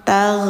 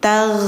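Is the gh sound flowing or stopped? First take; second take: flowing; flowing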